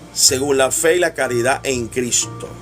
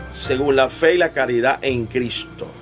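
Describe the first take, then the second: Both takes have the same delivery.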